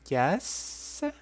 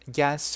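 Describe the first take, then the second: First: It is drawn out and sounds unsure. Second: It is short and sounds emphatic.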